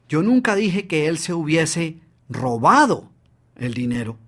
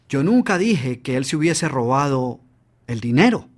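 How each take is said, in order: First: The stress is on the word robado. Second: The stress is on the word dinero.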